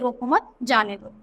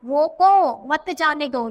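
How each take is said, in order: First: There is a pause after 'mat'. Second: There is a pause after 'roko'. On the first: Do not stop him; let him go. "मतलब क्या हो गया कि रोको मत" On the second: Stop him; do not let him go. "यहाँ पे पोज लिया तो इसको रोको उसे जाने मत दो"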